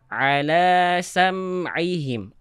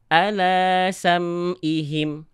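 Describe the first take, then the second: First: Ala begins with a deep pharyngeal throat sound. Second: Ala begins with a plain glottal stop. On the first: The speaker calls it right. "Ini cara baca yang tepat" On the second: The speaker calls it wrong. "Jangan sampai kita baca"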